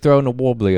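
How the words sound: It is said in an English accent. The speaker calls it right. "when you say it with an uh, English accent"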